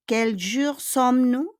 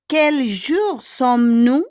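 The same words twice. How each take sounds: First: Said in the usual way. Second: Slow, loud and careful, stressing jour; teacher models the question slowly and loudly; slow model reading. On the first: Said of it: "repeat at normal pace". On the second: Shown as a demonstration. Teacher models the question for the class, slow and loud. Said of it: "quel jour sommes-nous? (teacher models, then repeats)".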